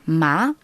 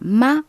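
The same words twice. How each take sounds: First: It is said with the second, rising tone. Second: It is said with the first tone. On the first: It means flax. "en deuxième ton, ... C'est un ton qui monte" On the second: It means mother. "le premier ton"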